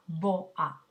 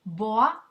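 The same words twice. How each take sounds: First: "boa" as two separate syllables, bo, a; split into syllables. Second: Said in the usual way. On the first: Shown as a demonstration. Teacher showing students a hiatus, "boa" split bo-a. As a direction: break "boa" between o and a. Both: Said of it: "vamos a separar en sílabas distintas".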